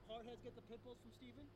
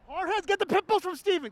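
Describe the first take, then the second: First: Said in the usual way. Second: Put-on broad singsong kids theatre. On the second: Shown as a demonstration. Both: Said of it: "Can you say that with me?".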